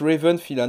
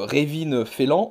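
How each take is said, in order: First: The name is said with an English pronunciation. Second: The name is said the way French spelling reads. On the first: The speaker calls it right. "ça se prononce Raven Philan" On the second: The speaker calls it wrong. "vous lisez euh, Révine Félan"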